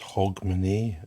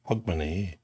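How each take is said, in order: First: Hogmanay is said in the Edinburgh way. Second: Hogmanay is said in the Glasgow way. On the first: The speaker calls it wrong. "Nobody says Hogmanay unless you're from Edinburgh" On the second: The speaker calls it right. "You're from Glasgow. You should be saying Hogmanay"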